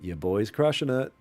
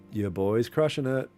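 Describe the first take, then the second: No difference in how they are said.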